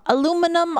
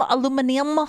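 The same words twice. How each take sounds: First: Aluminum said the American way, four syllables, stress on "lu"; American pronunciation. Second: Aluminium said the British way, five syllables, stress on "min"; British pronunciation. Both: Shown as a demonstration.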